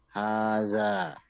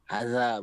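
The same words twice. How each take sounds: First: The first vowel is held long. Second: The first vowel is short. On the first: The speaker calls it right. "ha dengan za itu sama-sama panjangnya sama" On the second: The speaker calls it wrong.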